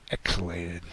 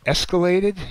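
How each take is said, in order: First: Said in the usual way. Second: Escalated? shouted high and loud; a loud, high, incredulous escalated?; mocking question. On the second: Shown as a demonstration. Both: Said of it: "You drive an Escalade?".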